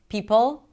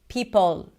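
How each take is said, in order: First: A strong first sound and a short final vowel. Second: A short first sound and a drawn-out final vowel. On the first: The speaker calls it right. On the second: The speaker calls it wrong. "you'll make the P sound really short to match the pull. And then maybe you'll add an, a sound right there"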